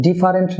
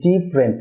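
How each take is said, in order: First: "ডিফারেন্ট" in three syllables, di-fa-rent; common mispronunciation. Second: "ডিফারেন্ট" in two syllables, DIF-rent; correct pronunciation. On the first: Teacher shows viewers the mistake, "ডিফারেন্ট" as di-fa-rent. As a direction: keep the middle "fa" in "ডিফারেন্ট". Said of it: "না হয়ে হবে". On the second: Teacher models for viewers, "ডিফারেন্ট" as DIF-rent. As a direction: drop the middle vowel of "ডিফারেন্ট". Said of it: "দুটি syllable হবে". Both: Shown as a demonstration.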